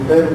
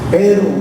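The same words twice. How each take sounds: First: The word is said softly, without extra force. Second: The word is said loudly with a raised voice. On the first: A mild, light contrast with what came before. "un pero ligero" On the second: A sharp, total contrast with what came before. "hay que levantar el tono de la voz al pronunciarlo"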